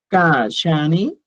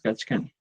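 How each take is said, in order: First: The middle consonants are a single 'sh' sound. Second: The middle consonants are a 'ch' plus 'k'. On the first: This is how it is normally spoken. "tu pronunciación va a ser Kashani" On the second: This follows the official written form. "Kachkani es la escritura"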